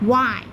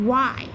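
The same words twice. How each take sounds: The two takes are said the same way.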